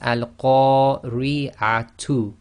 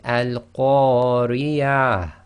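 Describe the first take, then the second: First: The word ends with a 'tu' sound. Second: The word ends with a soft breathy h. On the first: The reader carries on without stopping. "The word here is al-qari'atu" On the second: The reader stops on this word. "you read it as if it's a ha sakin"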